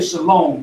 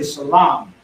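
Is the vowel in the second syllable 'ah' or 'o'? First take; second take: o; ah. First: The second vowel is an o sound. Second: The second vowel is an ah sound. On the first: This is how outsiders pronounce it. The speaker calls it wrong. "The O sound, they say Shalom" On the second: This is the true biblical pronunciation. The speaker calls it right. "we say Shalom. There is no O sound"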